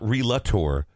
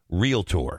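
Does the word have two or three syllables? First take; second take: three; two. First: The word is said with an extra middle syllable. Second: The word is said with no extra middle syllable. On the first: The speaker calls it wrong. "not Relator" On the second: The speaker calls it right. "Thank you for saying that properly"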